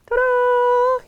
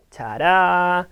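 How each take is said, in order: First: Ta-da! sung out much higher; a big playful ta-da; excited reveal. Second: Said in the usual way. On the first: Acted. Teacher unveiling the next picture, excited.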